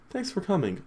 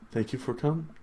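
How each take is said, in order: First: It is said in a put-on character voice. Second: It is said in a plain, natural voice.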